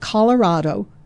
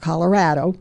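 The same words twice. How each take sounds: First: It is pronounced with a Spanish-like sound. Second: It is pronounced with a common American sound.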